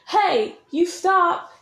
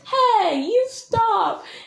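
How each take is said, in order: First: The yell is marked mainly by greater loudness. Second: The yell is marked mainly by changing pitch inflection. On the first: The speaker calls it wrong. "It's not like" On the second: The speaker calls it right. "You change the inflection, my dudes"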